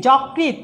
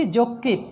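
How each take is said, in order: First: যকৃৎ as "jawkrit", slowly; as-written vowel. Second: যকৃৎ as "jokrit", slowly; closed "o" after j in যকৃৎ; correct spoken vowel. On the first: Teacher reads what is written, যকৃৎ with open "aw". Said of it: "লিখেছি". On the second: Teacher models pronunciation, যকৃৎ with closed "o". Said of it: "উচ্চারণ করছি". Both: Shown as a demonstration.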